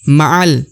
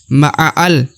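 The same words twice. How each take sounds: First: The sound runs straight into the lam. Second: An extra vowel is sounded before the lam. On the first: The speaker calls it right. "langsung masuk ke huruf lam sukun ya. Tidak dibaca lagi huruf alifnya" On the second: The speaker calls it wrong. "bukan ma'al. Bukan seperti itu ya"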